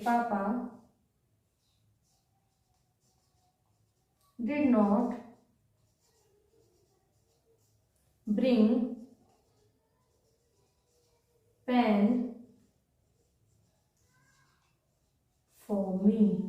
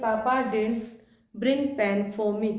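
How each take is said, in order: First: Both words 'did not' are said in full. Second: 'Did not' is contracted into one syllable. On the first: This is the written, formal form. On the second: This is how it is said in normal speech.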